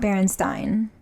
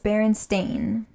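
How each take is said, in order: First: The last syllable does not rhyme with 'rain'. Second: The last syllable rhymes with 'rain'. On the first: The speaker calls it wrong. "not Berenstein" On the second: The speaker calls it right. "It's Berenstain"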